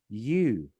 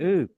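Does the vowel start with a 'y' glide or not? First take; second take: glide; no glide. First: The vowel starts with a y glide, like 'you'. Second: The vowel is a pure 'oo' without a glide. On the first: The speaker calls it wrong. "people say U" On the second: The speaker calls it right. "It's meant to be oo"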